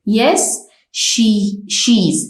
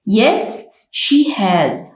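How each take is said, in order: First: The word has is reduced to an s sound. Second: The word has is said in full.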